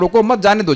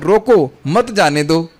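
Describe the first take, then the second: First: The pause comes after रोको मत. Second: The pause comes right after रोको.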